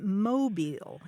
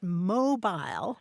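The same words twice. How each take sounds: First: It is said with an American pronunciation. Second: It is said with a British pronunciation. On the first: "they were calling it mobile in the U S" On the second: "it's pronounced mobile in the U K"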